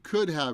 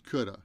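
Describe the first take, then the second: First: Both words are said fully, with a clear "have". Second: "Have" is reduced to a short vowel sound.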